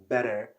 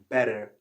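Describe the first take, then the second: First: It is said with an American accent. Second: The same.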